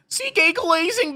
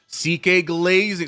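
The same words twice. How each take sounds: First: It is read in a put-on, imitated voice. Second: It is read in a plain, normal voice.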